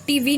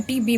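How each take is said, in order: First: टीवी said with a v sound, ʈiʋi; wrong way, TV. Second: टीबी said with a clear b sound, ʈibi; right way, TB. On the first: Teacher showing students the wrong way, टीवी with v. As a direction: say टीवी like the word TV, with v. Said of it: "टीवी नहीं बोलना है". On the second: Teacher showing students the right way, टीबी with b. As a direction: say टीबी with a firm b, not v. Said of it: "टीबी बोलना है". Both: Shown as a demonstration.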